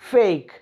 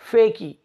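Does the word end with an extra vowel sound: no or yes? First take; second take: no; yes. First: The word ends on the k sound. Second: The word ends with an added ee vowel. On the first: The speaker calls it right. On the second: The speaker calls it wrong.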